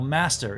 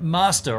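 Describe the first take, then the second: First: It is said in an American accent. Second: It is said in a non-American accent.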